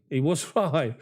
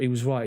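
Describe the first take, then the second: First: He was right broken by a laugh before right. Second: Said in the usual way. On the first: Real, not acted. Streamer laughs agreeing with a viewer's mate, amused. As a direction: chuckle in the middle of the words. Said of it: "repeats it with a laugh". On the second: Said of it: "repeats it, second with laugh".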